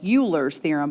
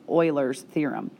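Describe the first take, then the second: First: The name is said the way its spelling suggests. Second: The name is said unlike its spelling suggests. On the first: The speaker calls it wrong. "doesn't look like it should be pronounced as Euler, maybe like" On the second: The speaker calls it right. "but it's really pronounced"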